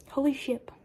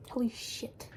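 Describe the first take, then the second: First: "Holy ship" with a clear p, mocked; mocking the euphemism. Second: "Holy shit" with a clear final t, said flatly; the real swear. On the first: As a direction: sneer at "Holy ship" with a final p. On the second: Shown as a demonstration. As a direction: plainly correct it to "Holy shit".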